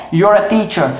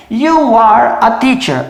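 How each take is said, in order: First: Said in the usual way. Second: Slow full form, every word apart; slow, uncontracted teaching demo; slow and spelled out. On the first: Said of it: "E aí eu emendo com isso". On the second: Shown as a demonstration. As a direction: say each word separately and slowly. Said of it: "Então, por exemplo".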